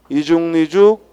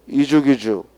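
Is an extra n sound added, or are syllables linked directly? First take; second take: added; linked. First: An extra n sound joins the two halves. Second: The final consonant links straight into the vowel. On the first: "먼저 니은을 첨가하여 읽고" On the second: "다음에는 그대로 연음하여 읽고"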